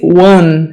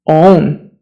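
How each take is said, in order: First: The word begins with a 'w' sound. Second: The word begins directly with the vowel. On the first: The speaker calls it wrong. "most people say one" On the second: The speaker calls it right. "It's own"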